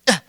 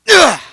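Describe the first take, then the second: First: It is a light, small effort sound. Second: It is a stronger, more forceful effort sound.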